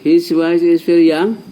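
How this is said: It is said as a question, rising.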